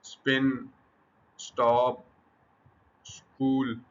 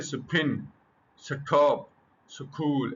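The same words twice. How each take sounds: First: स्पिन, स्टॉप, स्कूल with no puff of air after the s; unaspirated demo. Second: स्टॉप with a puff of air on the t, स्कूल with a breathy kh; the wrong way, aspirating स्टॉप and स्कूल; wrong aspirated version. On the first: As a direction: say स्टॉप and स्कूल with crisp plain t and k. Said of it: "अब ये इसमें aspiration नहीं है।". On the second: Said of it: "ऐसा नहीं है।". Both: Shown as a demonstration.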